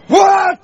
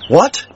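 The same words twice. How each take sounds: First: It sounds angry. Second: It sounds plain and not miserable.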